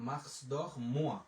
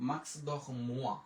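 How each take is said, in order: No difference in how they are said.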